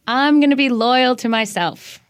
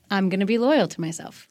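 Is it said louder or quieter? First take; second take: louder; quieter. First: It is said at a louder volume. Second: It is said at a quieter volume.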